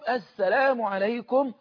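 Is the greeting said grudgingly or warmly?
warmly. The greeting sounds warm, cheerful and smiling. The speaker is truly happy to meet the other person. The speaker calls it right. "اللي بيقولها بقى بحب"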